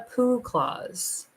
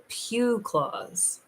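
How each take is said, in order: First: The first word is said with no glide, like 'poo'. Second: The first word is said with a 'y' glide, like 'pew'. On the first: The speaker calls it wrong. "not a poo clause" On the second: The speaker calls it right. "A pew clause"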